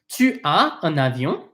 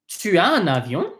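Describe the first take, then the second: First: It is said slowly and deliberately. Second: It is said at normal conversational speed.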